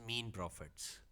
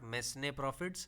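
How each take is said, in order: First: The first word is said as 'meen' with no s. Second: The first word is said as 'mes-nay' with s. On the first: The speaker calls it right. "It's मीन profits" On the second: The speaker calls it wrong. "It's not मैसने profits"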